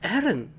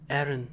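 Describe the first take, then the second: First: It is said in a startled, spooked way. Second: It is said flatly, without emotion.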